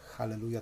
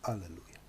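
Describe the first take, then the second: First: The word begins with an audible h sound. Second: The word begins directly with a vowel. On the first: The speaker calls it wrong. "nie mówi się Halleluja" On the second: The speaker calls it right. "tylko Alleluja"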